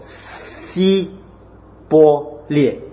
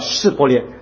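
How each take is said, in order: First: The word begins with an 's' sound. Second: The word begins with an 'sh' sound. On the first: The speaker is exposed as an Ephraimite. The speaker calls it wrong. "咬字音不正啊，便说西伯列" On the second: The speaker belongs to the Gileadites. The speaker calls it right. "发音他就是这种释伯列"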